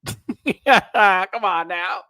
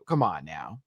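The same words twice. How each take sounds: First: Drawn-out high laughing cry on Come; laughing wail. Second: Said in the usual way. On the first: Shown as a demonstration.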